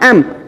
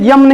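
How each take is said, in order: First: It begins with a plain vowel. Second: It begins with a y sound. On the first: The speaker calls it right. "ये होता है एम" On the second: The speaker calls it wrong. "ये यम नहीं होता है"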